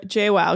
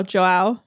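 First: "Joao" tried out as "Shay-wal", falling; a tentative "Joao" that drops at the end; "Joao" said as "Shay-wal", unsure; first try at a name. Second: "Joao" said as "Cho-al", rising as a question; "Joao" checked with an upward lilt; "Joao" as "Cho-al", unsure and rising; corrected name. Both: Shown as a demonstration. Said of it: "That was J".

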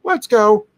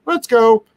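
First: "Let's go" said high and bright again; upbeat command "Let's go"; cheerful cue. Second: "Let's go" said high, bright and louder; upbeat command "Let's go"; cheerful cue. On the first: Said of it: "and then just, like". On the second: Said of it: "you can say". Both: Shown as a demonstration.

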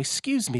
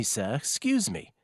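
First: High, polite mock call of "Excuse me". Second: Slower polite repeat. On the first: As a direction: chirp "Excuse me" up high to get attention. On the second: Retold or imitated. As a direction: draw out "sir, excuse me" patiently. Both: Polite imitated tap on shoulder.

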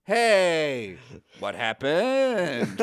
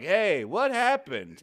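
First: Slow, lightly mocked flat line read; lightly mocked Harry Kim line, very slow; wooden line reading. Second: Wooden line reading. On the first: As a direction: imitate a stiff actor dragging the line out. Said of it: "the way he delivers it". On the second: Retold or imitated. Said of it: "His one line is like".

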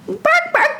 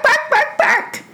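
First: Very high, yappy puppy barks; a little dog saying bye; dog barking. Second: High yaps ending in a laugh; a playful pup barking off; puppy barks. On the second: Dog barks goodbye. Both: Acted.

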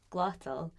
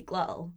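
First: "glottal" with the t fully sounded; careful pronunciation. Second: "glottal" with a glottal stop for the tt; casual "glottal", throat catch replacing the t. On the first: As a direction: say "glottal" carefully, releasing a clear t. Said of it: "speaking fast and I was speaking". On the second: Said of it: "Using the glottal stop". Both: Shown as a demonstration.

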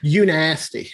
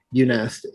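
First: Said in the usual way. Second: "You nasty" whispered, no voice. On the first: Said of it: "you nasty whisper take". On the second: Shown as a demonstration. Teasing friend with a whispered "You nasty". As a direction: breathe "You nasty" unvoiced.

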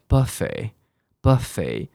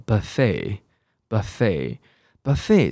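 First: "buffet" stressed on the first syllable, BUH-fay; front stress. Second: "buffet" stressed on the end, buh-FAY; American pronunciation. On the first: Teacher showing British stress moved forward, "buffet" as BUH-fay. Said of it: "他重音跑到前面了". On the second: Teacher showing the common American form, "buffet" as buh-FAY. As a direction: slowly model "buffet" as buh-FAY, second syllable stressed. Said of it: "是美国人的念法". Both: Shown as a demonstration.

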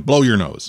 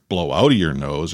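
First: Said in the usual way. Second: "out" leaned on, set apart from "Blow your nose"; stress on out. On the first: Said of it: "I just, you know". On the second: Shown as a demonstration. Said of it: "I didn't tell her".

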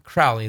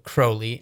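First: "Crowley" said as CRAU-lee; "Crowley" with the vowel of "cow"; actual pronunciation. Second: "Crowley" said as CROH-lee; long O in "Crowley", as in "go"; requested pronunciation. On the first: Minister contrasts the real name, "Crowley" rhyming with "cow". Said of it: "and not Crowley". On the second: Minister shows what the man asked for, "Crowley" as CROH-lee. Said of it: "asked to be called Crowley". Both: Shown as a demonstration.

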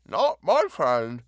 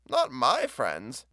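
First: Slow and thick through a bite of bread, louder; talking around a mouthful of peanut butter; mouth full. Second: Said in the usual way. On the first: A narrator's reading. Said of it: "said thickly".

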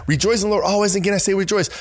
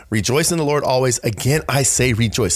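First: Higher, bright and eager reading; with enthusiasm. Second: Said in the usual way. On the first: Shown as a demonstration. Showing listeners how to share the verse, higher and enthusiastic. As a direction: read it like real good news. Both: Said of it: "have a little enthusiasm".

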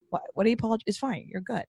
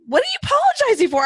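First: Hushed, soothing imitation of reassuring someone; quiet reassurance. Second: High, rushed exasperated question; mock incredulous. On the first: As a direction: gently wave away a needless apology. Imagined reassurance to the apologetic mom. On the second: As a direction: react in playful disbelief at a needless apology. Retold baffled reaction to mom's apologies.

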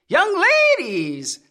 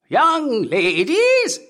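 First: Lightly voiced cracked old man calling; shrill cracked old man. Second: Put-on much higher, slow drawn-out old man cry. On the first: Old man searching the dark room, cracked call. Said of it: "called in a shrill, cracked voice". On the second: Old man hunting the girls, high drawn cry. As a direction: stretch the call high and long. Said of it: "he cried". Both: A narrator's reading.

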